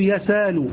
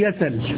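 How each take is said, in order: First: A long vowel replaces the glottal stop. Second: The glottal stop is dropped entirely. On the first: "وتقلب ألفا تقول يسال" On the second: "وتحذف تقول يسل"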